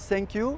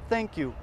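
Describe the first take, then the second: First: The first sound is not made at the teeth. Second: The first sound is made with tongue at teeth. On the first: The speaker calls it wrong. "on ne dit pas thank you" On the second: The speaker calls it right. "on dit thank you"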